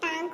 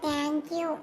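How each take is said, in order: First: It is said as one fused word, tanku. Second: It is said as two clear words, thank you. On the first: The speaker calls it wrong. "ಅದು ಟಾಂಕು ಅಲ್ಲ" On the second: The speaker calls it right.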